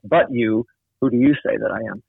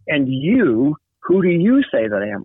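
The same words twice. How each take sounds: First: "But you" set against the others, with no rise in pitch; contrastive stress on "But you". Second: "And you" lifted, with "you" ringing up high; stress on "And you". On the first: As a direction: mark the contrast on "But you", kept level. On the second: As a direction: raise the pitch of "you" in "who do you say". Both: Shown as a demonstration. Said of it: "Or you could put the contrast".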